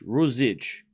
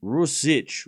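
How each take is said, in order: First: Rusic with the middle s buzzed as z; careful pronunciation. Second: Rusic with a hissing s in the middle; careful pronunciation. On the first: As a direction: sound out Rusic as ROO-zitch. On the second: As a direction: sound out Rusic, s not z. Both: Shown as a demonstration. Streamer testing versions of a player's name, careful pronunciation. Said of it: "You say Rusic differently".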